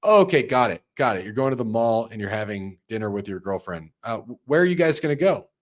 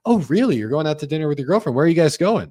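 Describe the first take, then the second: First: Flat, dutiful recap with no interest; mock bad sales rep; mechanical rep. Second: High, quick, interested reaction; right way with lively verbal cues; engaged listener. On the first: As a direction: tick the boxes like a robot. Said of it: "You don't say". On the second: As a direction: lean in and react to the news. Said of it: "verbal cues sound like this". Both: Shown as a demonstration.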